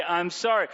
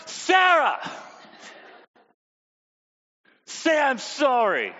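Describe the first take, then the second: First: Said in the usual way. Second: Higher, louder exasperated demand; exasperated parent. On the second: Retold or imitated. Parent exasperated that Sarah still won't apologize. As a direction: lose patience and insist.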